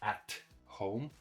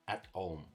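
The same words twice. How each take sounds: First: The t in 'at' is fully released. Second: The t in 'at' is held, not released. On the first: The speaker calls it wrong. "Not at home" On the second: The speaker calls it right. "when we have a stop T, it sounds like"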